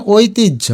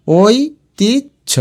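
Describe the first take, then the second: First: Said in the usual way. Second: ঐতিহ্য very slowly as oi, tij, jho; higher, long gaps inside ঐতিহ্য; syllable by syllable. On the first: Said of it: "এটার উচ্চারণ". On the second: Shown as a demonstration. Teacher sounds it out for spelling, ঐতিহ্য slowly split. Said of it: "ভেঙে ভেঙে লিখবে".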